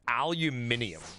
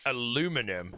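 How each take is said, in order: First: It is said the British way, five syllables. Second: It is said the American way, four syllables. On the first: "In the U K, we pronounce aluminum as aluminium" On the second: "we pronounce aluminum as aluminium"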